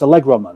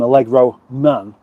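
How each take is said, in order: First: It is said as one compound word, stress on Allegro. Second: It is said as two words, stress on Man. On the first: It is a superhero name, like Superman. The speaker calls it right. "It's one word because it's that" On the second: It is just a man called Allegro. The speaker calls it wrong. "doesn't sound very superheroish"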